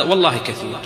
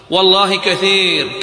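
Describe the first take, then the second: First: Said in the usual way. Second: والله كثير slowed, louder and higher; emphatic. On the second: Real, not acted. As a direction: lean hard on والله كثير, slow and loud. (والله كثير بتوكيد بطيء وصوت عال)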